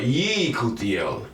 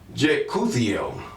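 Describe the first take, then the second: First: The name begins with a Y sound. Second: The name begins with a J sound. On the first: The name honors the Most High Yah. The speaker calls it right. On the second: The name was changed to show ownership. The speaker calls it wrong.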